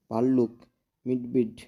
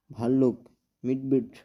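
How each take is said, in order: Both takes have the same delivery.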